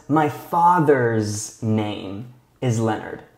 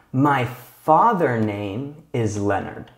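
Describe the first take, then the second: First: "father's" drawn out with a clear final S; slow and careful, leaning on "father's"; stress on father's. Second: Slow, careful reading of the wrong form "My father name"; wrong sentence read slowly. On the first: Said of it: "we need to add an S and an apostrophe". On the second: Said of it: "this sentence is not correct". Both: Shown as a demonstration.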